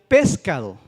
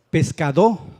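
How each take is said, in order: First: The stress is on the antepenultimate syllable. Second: The stress is on the final syllable. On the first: "Si fuera la antepenúltima, la pez" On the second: "Si fuera la última"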